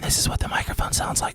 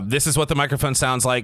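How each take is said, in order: First: It is spoken in a whisper. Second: It is spoken at a normal volume. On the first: "when I whisper" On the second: "with a normal voice"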